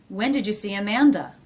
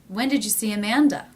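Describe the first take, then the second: The two takes are said the same way.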